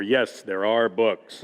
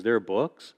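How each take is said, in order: First: "yes, there are books" slowly, as a firm statement; emphatic motto. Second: "There are books?" with a questioning rise on "books"; retold questioning response. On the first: Retold or imitated. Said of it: "That's gonna be our motto from now on". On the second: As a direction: imitate her asking "There are books?", pitch lifting at the end. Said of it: "I'll never forget her response".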